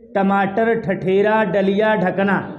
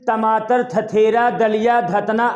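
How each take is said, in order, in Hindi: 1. t और d की ध्वनियाँ जीभ मोड़कर बनती हैं। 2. t और d की ध्वनियाँ दाँतों से सटाकर बनती हैं। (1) "ऐसे ही हमारा जिहवा देखो मुड़ जा रहा है" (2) "अपना जिहवा को मोड़िए मत"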